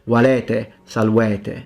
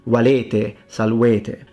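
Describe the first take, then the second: First: The vowels are pronounced open. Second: The vowels are pronounced closed. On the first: "You can open them" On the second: "I closed them"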